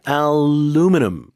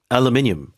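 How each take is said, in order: First: It is said with an American accent. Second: It is said with a British accent.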